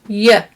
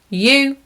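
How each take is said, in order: First: The word has a reduced, weak vowel. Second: The word has a full, clear vowel. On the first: "in natural English, those words would sound like y" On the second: "Strong forms"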